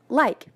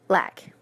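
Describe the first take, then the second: First: The vowel glides from ah toward ee. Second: The vowel is a single flat ah sound. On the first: "a non-Appalachian speaker says the word" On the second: "a speaker with an Appalachian dialect would say"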